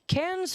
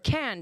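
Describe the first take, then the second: First: The name is pronounced in an English way. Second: The name is pronounced in a French way. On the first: The speaker calls it wrong. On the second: The speaker calls it right.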